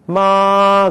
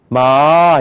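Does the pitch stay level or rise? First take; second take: level; rising. First: The pitch stays level throughout. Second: The pitch rises toward the end. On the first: "그게 일성이라는 거예요" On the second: "이렇게 올라간단 말이에요"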